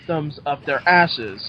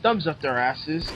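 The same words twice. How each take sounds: First: THUMBS UP THEIR ASSES said slowly, word by word; slow down and weight each word of "thumbs up their asses"; deliberate stress all through THUMBS UP THEIR ASSES; emphatic repeat. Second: Said in the usual way. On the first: Shown as a demonstration. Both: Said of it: "Emphasis on words".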